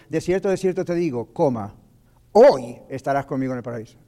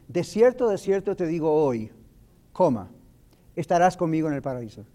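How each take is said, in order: First: The pause comes before the word hoy. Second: The pause comes after the word hoy.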